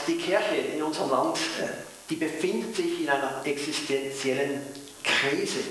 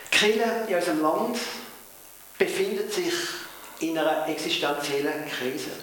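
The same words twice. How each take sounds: First: Switched to Swiss-flavoured Hochdeutsch; standard High German. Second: In broad Swiss German Mundart; Swiss German dialect. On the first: Pastor repeats for viewers in Japan, in standard German. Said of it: "dann rede ich in, in Hochdeutsch". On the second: Pastor to congregation, first in Swiss German dialect. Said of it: "wenn ich Mundart rede". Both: Real, not acted.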